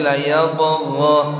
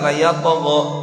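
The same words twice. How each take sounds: First: The ghain is drawn out with flowing sound. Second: The ghain is cut off short and abruptly. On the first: The speaker calls it right. "Ada yang mengalir" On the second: The speaker calls it wrong. "Enggak sekedar"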